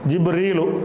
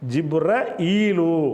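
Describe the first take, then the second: First: The middle flows smoothly with no glottal catch. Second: A glottal catch breaks the middle before 'eelu'. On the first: "ஜிப்ரீலுன்னு சொல்லாமல் இந்த முதல் விஷயம் ஜிப்ரீலு" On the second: "ஹம்சா நடுவில்"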